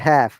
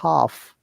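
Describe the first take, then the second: First: It is said with an American accent. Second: It is said with a British accent. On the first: "American says" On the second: "in British English, we say half"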